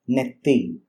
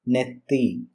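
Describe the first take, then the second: First: The middle consonant is a long double t. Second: The middle consonant is a long double t.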